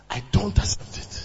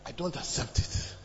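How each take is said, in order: First: "I don't accept it" repeated louder and firmer; "I don't accept it" with raised pitch and more force; emphatic refusal. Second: Said in the usual way. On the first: Retold or imitated. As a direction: push harder on "I don't accept it". Retold refusal, repeated harder.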